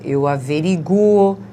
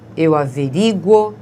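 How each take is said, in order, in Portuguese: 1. A tônica cai na vogal U. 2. A tônica cai na vogal I. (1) "tem o U do som forte" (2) "com A ou I fortes, tônicos"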